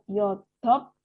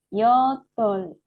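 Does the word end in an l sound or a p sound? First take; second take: p sound; l sound. First: The l is dropped and it ends in p. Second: The word ends with an l sound. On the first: The speaker calls it wrong. "atau yodop. Bukan ya" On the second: The speaker calls it right. "bacanya menjadi yodol ya"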